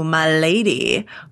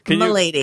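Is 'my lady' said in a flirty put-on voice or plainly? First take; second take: flirty; plain. First: It is said in a put-on, flirty voice. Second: It is said in a plain, ordinary voice. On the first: The speaker is flirting with her. The speaker calls it wrong. "a lot of people are hearing that as like, ooh, my lady" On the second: The speaker respectfully notes her noble rank. The speaker calls it right. "But what he says is"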